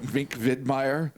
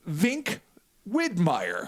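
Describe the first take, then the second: First: The V and W sound German. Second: The V and W sound English. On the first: "the Germanic pronunciation. I almost went" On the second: "because there's a clear difference"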